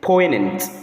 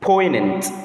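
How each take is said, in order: Both takes have the same delivery.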